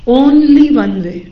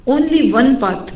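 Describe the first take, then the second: First: "only one way" drawn out very slowly and louder; emphatic stress. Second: Said in the usual way. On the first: Shown as a demonstration. Teacher drives home that there is only one path, very slowly and loud. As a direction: land each word of "only one way" separately, hard. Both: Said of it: "اس کی جمع نہیں ہوتی".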